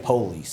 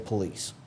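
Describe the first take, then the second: First: The stress is on the first syllable. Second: The stress is on the second syllable. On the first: The speaker calls it wrong. "Don't say police" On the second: The speaker calls it right. "say police"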